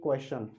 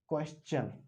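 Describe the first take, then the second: First: The ending is said with a 'shun' sound. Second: The ending is said with a 'chun' sound. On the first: The speaker calls it wrong. "वो गलत हो जाता है" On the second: The speaker calls it right. "जिसमें शन नहीं आता है जबकि चन आता है"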